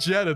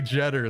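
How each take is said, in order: First: The name ends without an r sound. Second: The name ends with a Southern r sound.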